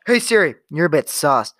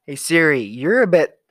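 First: Calling Siri out loud and clear. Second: Loud call to Siri. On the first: Teasing Siri loudly, calling her sus. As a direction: say it loud so the phone hears. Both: Acted.

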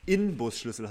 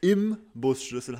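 First: Inbusschlüssel said slowly with a clear N; Inbusschlüssel stressing the N sound; correct pronunciation. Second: Im Busschlüssel said slowly with M; Busschlüssel with m, like im Bus; wrong pronunciation. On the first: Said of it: "mit N". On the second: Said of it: "dass es gar nicht". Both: Shown as a demonstration.

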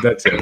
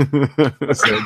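First: Said in the usual way. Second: Laughing through the words. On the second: Real, not acted. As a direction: giggle it out.

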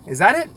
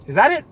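The two takes are said the same way.

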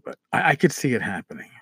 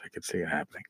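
First: Said in the usual way. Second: Softer and lower, half to himself; muttered repeat. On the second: Real, not acted. Host muses about brawls at the table, softer and lower. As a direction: let it fade out as an afterthought.

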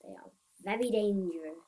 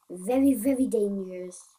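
First: Said in the usual way. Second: "Very, very" punched louder; emphatic VERY. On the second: Real, not acted. Player warning of poisonous snakes, emphatic stress on "Very, very". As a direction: lean hard and loud on both words in "Very, very".

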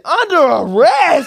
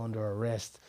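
First: Very loud, high, drawn-out disbelief; high-pitched incredulous shout; shocked outcry. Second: Said in the usual way. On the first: Retold or imitated. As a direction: yell it back in mock outrage. Retold shock at arrest.

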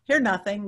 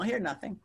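First: Said in the usual way. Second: Softer, falling repeat of "Hear nothing."; quiet repeat. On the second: Shown as a demonstration. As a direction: drop the voice right down on "Hear nothing.".

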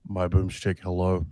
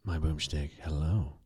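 First: Congested, husky sick voice; sick sultry voice. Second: Low, soft copy of a congested voice; imitating sultry sick voice. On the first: Real, not acted. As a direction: talk through a head cold. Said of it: "I got that sultry, sick voice". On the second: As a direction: echo the sick voice, lower and softer. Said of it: "Ooh, that, that's sultry".

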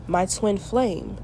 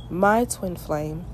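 Both takes have the same delivery.

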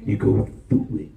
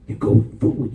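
First: You go through it, unvoiced and low; quietly. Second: You go through it, louder, rising on through; emphatic repeat. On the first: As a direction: say You go through it almost under the breath. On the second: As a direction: press through harder. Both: Shown as a demonstration.

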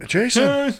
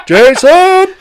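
First: Said in the usual way. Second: "Jason" yelled much higher and louder, drawn out; shouted name. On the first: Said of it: "Man, Jason". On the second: Acted. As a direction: belt out "Jason" like calling across a room.

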